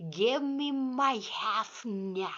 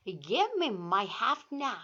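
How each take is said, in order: First: Slouchy cocky read. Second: Said in the usual way. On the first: Shown as a demonstration. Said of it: "껄렁껄렁하게 읽어야 될 것 같아요". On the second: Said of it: "다 같이 시작".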